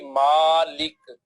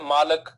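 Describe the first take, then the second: First: The vowel after the L is an 'i'. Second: The vowel after the L is an 'a'. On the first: The speaker calls it right. "ये correct pronunciation है Quranic word की" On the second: The speaker calls it wrong. "हम क्या बोलते हैं? ... लाम के ऊपर जबर पड़ते हैं"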